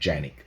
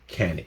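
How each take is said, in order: First: The name is said the Turkish way. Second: The name is said the American way. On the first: This is how the name is really pronounced. "It's actually pronounced Janik" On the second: This is how Americans choose to say it. "Even though we're here in America, we're gonna do whatever we want, and it's called Canik"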